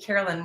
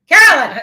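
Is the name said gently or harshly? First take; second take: gently; harshly. First: The name is said softly and kindly. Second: The name is said sharply and loudly.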